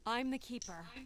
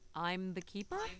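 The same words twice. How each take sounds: First: It sounds confident and sincere. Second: It sounds unsure and hesitant.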